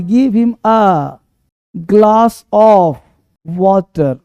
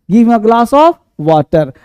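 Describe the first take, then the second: First: Very slow, with pauses between word groups; slow dictation. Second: Said in the usual way. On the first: Shown as a demonstration. Teacher dictating the translation to students, very slowly. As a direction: break it into pieces for writing. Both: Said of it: "एक गिलास पानी".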